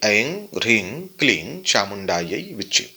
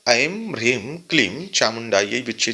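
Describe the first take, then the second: First: The seed syllables end in an ng sound. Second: The seed syllables end in an m sound. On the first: The chant produces very intense energy. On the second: The chant produces comparatively gentle energy.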